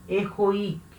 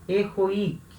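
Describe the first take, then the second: The two takes are said the same way.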